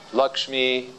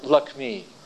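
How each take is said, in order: First: The middle cluster is said as 'ksh'. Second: The middle cluster is said as 'kk'. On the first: "They don't say" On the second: "It's like Lakmi"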